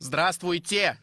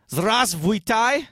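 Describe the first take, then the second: First: Здравствуйте said crisply as zdras-tvui-te with a falling end; native Russian hello. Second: Здравствуйте said slowly as zras-vui-tai with a rising end; a beginner sounding out Здравствуйте, rising at the end; clumsy Russian hello. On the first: Russian assistant shows host how to say it: Здравствуйте clean and falling. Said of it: "I'm his Russian assistant". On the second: Host greets listeners in bad Russian: Здравствуйте mangled, slow and rising. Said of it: "his Russian is just horrible". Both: Shown as a demonstration.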